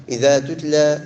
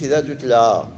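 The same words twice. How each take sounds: First: إذا تتلى with damma, /iða tutla/; correct reading. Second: إذا تتلى with the wrong vowel on the taa; the mistaken version; wrong reading. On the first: Teacher gives students the correct reading of إذا تتلى. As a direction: say tutla clearly. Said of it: "لا، إذا تتلى". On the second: Teacher warns students about the wrong reading of إذا تتلى. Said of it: "ما نقولش إذا تتلى". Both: Shown as a demonstration.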